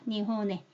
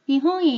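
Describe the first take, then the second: First: The n is a full n sound before the vowel. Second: The n glides nasally into the vowel. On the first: The speaker calls it wrong. "한국 사람들은 이렇게 되어 있으면 백 퍼센트 니혼에 이렇게 읽습니다" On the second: The speaker calls it right. "이응도 아니고 니은도 아닌 흘려보내는 발음"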